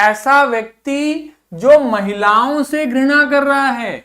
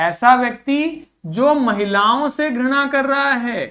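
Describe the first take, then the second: Both takes have the same delivery.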